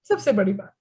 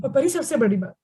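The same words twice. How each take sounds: First: सबसे बड़ी बात dropped much lower for suspense; ominous low build-up on सबसे बड़ी बात; dramatic low repeat. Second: Said in the usual way. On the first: Acted.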